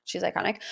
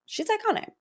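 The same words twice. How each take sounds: First: Softer, low murmured iconic; low aside. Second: Much higher, softer squealed iconic. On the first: Host repeating her praise as a quiet aside. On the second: Host squealing about Dorit's beret, high pitched. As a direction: squeal iconic like a starstruck fan. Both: Shown as a demonstration.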